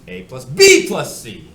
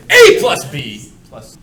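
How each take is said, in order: First: "A plus" held back, "B plus C" bursting out loud and slow; hugely exaggerated emphasis on "B plus C"; stress on B plus C. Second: "A plus B" shouted slowly as one group, "plus" dropping away; hugely exaggerated emphasis on "A plus B"; stress on A plus B. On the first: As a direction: blast out the group "B plus C". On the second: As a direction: blast out "A plus B", then back off. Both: Shown as a demonstration. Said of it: "It's all about emphasis".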